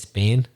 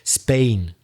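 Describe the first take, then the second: First: Spoken in a Belfast accent. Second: Spoken in a standard British accent. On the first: "If I were in Belfast... I would say" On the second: "let me try and think like the Oxford Dictionary"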